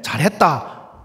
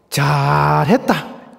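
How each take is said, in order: First: It sounds like genuine, pleased praise. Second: The first syllable is drawn out, sounding exasperated.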